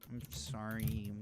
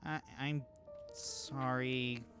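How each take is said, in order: First: It is mumbled quietly and half-heartedly. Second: It is said clearly and with conviction. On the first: The apology is not really meant. The speaker calls it wrong. "you hear her mumbles uh like a non-committal apology" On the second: The apology is meant sincerely. The speaker calls it right. "with a little more conviction"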